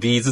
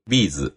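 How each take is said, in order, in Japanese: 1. 最初の音節にはアクセントがありません。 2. アクセントは最初の音節にあります。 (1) "でもビーズって言っちゃうよね" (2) "B の方にイントネーションが来るビーズ"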